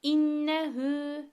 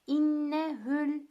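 First: Slow recitation of "İnnehü" with the final ü stretched one elif; lengthened pronoun. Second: Slow recitation of "İnnehül" with the short ü tied straight to the l; short pronoun. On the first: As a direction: chant "İnnehü" and draw out the ü. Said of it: "uzatıyoruz". (zamir uzatılarak yavaş tilavet) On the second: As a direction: chant "İnnehül" and join it without stretching. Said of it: "uzatma şansın yok". (zamir uzatılmadan bağlanarak okunuş) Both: Shown as a demonstration.

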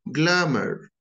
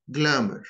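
First: "Glamour" with a strong American r at the end; American pronunciation. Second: British pronunciation. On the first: Teacher contrasting the accents, American take. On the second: Teacher contrasting the accents, British take. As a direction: say "glamour" in a British accent without the r. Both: Shown as a demonstration. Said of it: "notice the differences between them".

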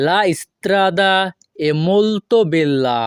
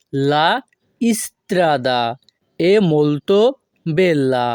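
First: Very slow, careful Italian; slow model phrase. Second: "La" "strada" "è molto" "bella" with pauses between; broken word by word. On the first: Teacher modelling the Italian slowly for students. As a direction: draw it out for learners. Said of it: "model then broken". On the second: Teacher repeating the phrase in chunks with pauses. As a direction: split into pieces with pauses. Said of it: "broken repeat". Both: Shown as a demonstration.

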